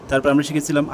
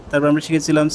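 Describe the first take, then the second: The two takes are said the same way.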